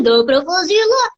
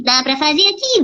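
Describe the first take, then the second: First: "lá" said higher with a rounded, darker vowel; voice shifted up. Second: Said in the usual way. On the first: Shown as a demonstration. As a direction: show a second placement on "lá". ("lá" mais agudo, com vogal fechada) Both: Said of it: "dá pra fazer aqui, dá pra fazer lá".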